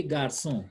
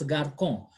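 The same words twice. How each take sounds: First: GARÇON with a smooth S sound, "gar-son"; GARÇON, second syllable opening on S; correct soft C. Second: GARCON with a K sound mid-word, "gar-kon"; wrong hard C. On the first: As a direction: say GARÇON with the cedilla's S. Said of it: "So we say garçon". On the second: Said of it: "supposed to be read as garcon". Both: Shown as a demonstration.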